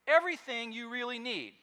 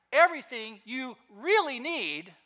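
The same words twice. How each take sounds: First: Said in the usual way. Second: "really" punched louder with a rising tune; stress on really. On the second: Shown as a demonstration. Pastor repeats it to the congregation, stressing "really". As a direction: lean hard on "really" and lift it at the end. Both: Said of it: "Note that".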